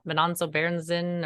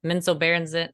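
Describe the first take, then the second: First: Menonzo Berenzin with an extra NON syllable; tentative try at "Menonzo Berenzin"; alternate pronunciation. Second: Menzo Berenzin, MEN straight into zo; second variant, "Menzo Berenzin"; alternate pronunciation. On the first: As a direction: say "Menonzo Berenzin", adding a syllable after Men. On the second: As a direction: say "Menzo Berenzin" without an extra middle syllable. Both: Shown as a demonstration. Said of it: "there's so many different ways".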